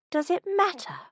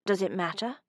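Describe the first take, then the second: First: A much higher, outraged echo; incredulous echo. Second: Said in the usual way. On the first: Acted. Minerva echoes his question, much higher and outraged. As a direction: throw his words back in disbelief.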